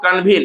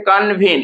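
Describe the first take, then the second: First: Said in the usual way. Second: कन्वीन broken into two parts, कन and वीन; teacher separating कन from वीन in कन्वीन; split into syllables. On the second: Shown as a demonstration. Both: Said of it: "कन्वीन को क्या लिखते हैं".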